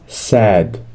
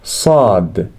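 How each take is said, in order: First: The S is plain and light. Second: The S is heavy and emphatic. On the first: The speaker calls it wrong. "It's not sad" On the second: The speaker calls it right. "like the S in say, but with more emphasis"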